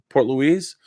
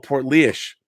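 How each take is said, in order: First: The second word sounds like Louise. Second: The second word sounds like Leesh. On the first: The speaker calls it wrong. "is it Port Port Louise?" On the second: The speaker calls it right. "My hometown is pronounced Port Leish"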